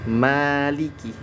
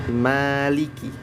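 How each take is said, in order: The two takes are said the same way.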